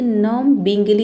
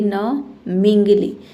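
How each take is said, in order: First: A b sound is pronounced after the m. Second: No b sound is pronounced after the m. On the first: The speaker calls it wrong. "इसे नम बिंगली नहीं पढ़ेंगे" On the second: The speaker calls it right. "इसे पढ़ेंगे न मिंगली"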